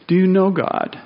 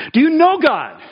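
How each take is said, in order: First: Said in the usual way. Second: "know" pushed up high and loud; emphatic question. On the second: Acted. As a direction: lift "know" hard, as a searching challenge. Preacher presses congregation on knowing.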